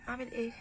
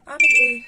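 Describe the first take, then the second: First: Said in the usual way. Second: A loud, helpless cry of what do I do; exasperated shout. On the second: Real, not acted. Owner at a loss over the cat, shouting. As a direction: throw it out in frustration.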